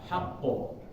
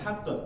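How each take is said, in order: First: The final echo vowel is round, like 'o'. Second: The final echo vowel leans toward 'e'. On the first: The speaker calls it right. "tapi haqqo" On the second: The speaker calls it wrong. "jangan hak"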